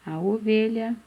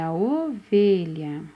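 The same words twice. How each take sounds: First: Said in the usual way. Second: Ovelha slow, with a long held O; stretched first vowel. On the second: Shown as a demonstration. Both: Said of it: "E com a letrinha O".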